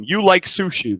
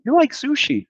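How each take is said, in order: First: Said in the usual way. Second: "You like sushi" lifted much higher, asked with the voice; rising question tune. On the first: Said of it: "the way that you state". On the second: Shown as a demonstration. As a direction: turn "You like sushi" into a question by pitch alone. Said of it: "in Portuguese".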